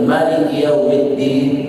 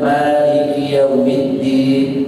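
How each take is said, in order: First: The first vowel of Maliki is kept short. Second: The first vowel of Maliki is held long. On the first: This follows another accepted reading tradition. "Riwayat lain ... Kenapa pendek?" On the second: This follows one accepted reading tradition. "Boleh dibaca panjang"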